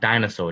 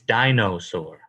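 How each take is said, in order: First: The second syllable sounds like 'na'. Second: The second syllable sounds like 'no'. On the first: "but I'm like dinosaur, That's how I say it. So I'm like D I N A" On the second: "It's dinosaur"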